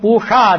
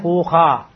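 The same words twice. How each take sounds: First: The middle consonant is a clear sh sound. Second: The middle consonant is a soft half kh sound. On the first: "instead of puha" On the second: "they'll say a half kha instead of a sha"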